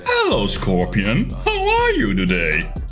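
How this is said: It is said in an exaggerated, annoying way.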